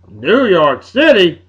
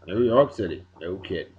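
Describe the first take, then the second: First: New York City drawn out slowly and louder; grand announcement. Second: "New York City" dropped lower and softer under the breath; muttered repeat. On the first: Host announcing the city's new name on air, slow and louder. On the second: Host repeating the new name to himself, low and soft. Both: Acted.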